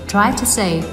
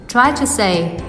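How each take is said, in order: The two takes are said the same way.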